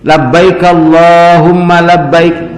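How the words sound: It is said earnestly, with full feeling. The words come from the heart. The speaker calls it right. "Kudu kitunya nyebutnya teh"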